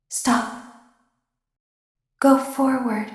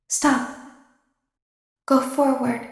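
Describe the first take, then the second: No difference in how they are said.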